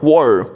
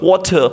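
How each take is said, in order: First: It is said in an American accent. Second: It is said in a British accent. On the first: "when you speak the same word in American accent" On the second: "if you use a British accent for speaking the same word"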